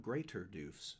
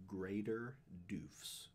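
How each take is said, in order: First: "Greater Doofs" said quicker, as the version to reject; the wrong name. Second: "Greater Doofs" drawn out slowly; the corrected name. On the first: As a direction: say "Greater Doofs" briskly, as a misnaming. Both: Shown as a demonstration. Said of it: "Not Greater Doofs".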